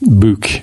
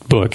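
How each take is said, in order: First: The word is said in an imitated Scottish accent. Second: The word is said in a plain American accent.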